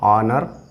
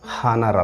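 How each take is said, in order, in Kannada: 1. ಈ ಪದ ಸ್ವರದ ಶಬ್ದದಿಂದ ಆರಂಭವಾಗುತ್ತದೆ. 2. ಈ ಪದ 'ಹ' ಶಬ್ದದಿಂದ ಆರಂಭವಾಗುತ್ತದೆ. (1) "ಹ ಸೌಂಡನ್ನು ಕೆಲವು ಕಡೆ ಸೈಲೆಂಟ್ ಮಾಡ್ತೀವಿ" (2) "ಹಾನರ್ ಅಲ್ಲ"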